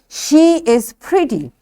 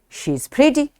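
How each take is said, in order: First: The verb is said as a separate full word. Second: The verb is reduced and joined to the pronoun. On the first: "When it's a strong form" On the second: "This is weak form"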